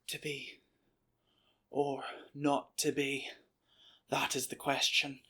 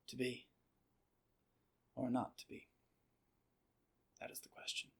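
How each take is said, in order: First: It is delivered in an exaggerated, theatrical way. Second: It is delivered in a natural, authentic way.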